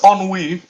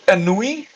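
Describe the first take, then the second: First: It is said with a 'w' sound. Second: It is read as spelled, without a 'w' sound. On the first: The speaker calls it right. "where's the W?" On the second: The speaker calls it wrong. "for a long time like I spelled ennui"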